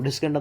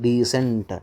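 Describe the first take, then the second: First: The c is sounded as a k. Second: The c is sounded as an s. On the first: The speaker calls it wrong. "ಡಿಸ್ಕೆಂಟ್ ಅಂತ ಓದಲ್ವಲ್ಲ" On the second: The speaker calls it right. "ಸಿ ನ select ಮಾಡ್ತೀವಿ ಏನಂತ ಡೀಸೆಂಟ್"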